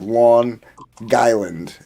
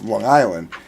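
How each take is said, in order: First: The G is strong, joined to Island. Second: The G in Long is barely heard.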